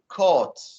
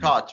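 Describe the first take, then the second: First: It is said with a British accent. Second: It is said with an American accent. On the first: "with the British, they say caught" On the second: "American pronunciation, you say it like cot"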